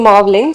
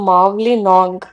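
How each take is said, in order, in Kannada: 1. ಈ ಹೆಸರನ್ನು 'Mawling' ಎಂದು ಹೇಳಲಾಗುತ್ತದೆ, 'ling' ಎಂದು ಕೊನೆಯಾಗುತ್ತದೆ. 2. ಈ ಹೆಸರನ್ನು 'Mawli nong' ಎಂದು ಹೇಳಲಾಗುತ್ತದೆ, 'nong' ಎಂದು ಕೊನೆಯಾಗುತ್ತದೆ. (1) "ರಾಂಗ್ ಆಗಿ ಪ್ರೊನೌನ್ಸ್ ಮಾಡಿದೆ" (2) "ಕರೆಕ್ಟ್ ಆಗಿ ಪ್ರೊನೌನ್ಸ್ ಮಾಡಿದೆ"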